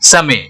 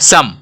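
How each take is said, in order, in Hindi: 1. अंतिम e का उच्चारण स्वर की तरह होता है। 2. अंतिम e का उच्चारण नहीं होता।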